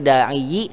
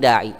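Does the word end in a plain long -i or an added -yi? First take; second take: added -yi; plain -i. First: The final ya carries an extra short i vowel. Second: The word ends on a plain long i. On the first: The speaker calls it wrong. "Enggak boleh da'i" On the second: The speaker calls it right. "tapi da'i"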